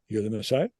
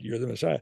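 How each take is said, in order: First: It is said as a question, rising at the end. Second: It is said as a statement, falling at the end.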